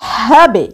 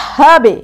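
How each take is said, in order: First: The final b is released with a bounce. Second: The final b is released with a bounce.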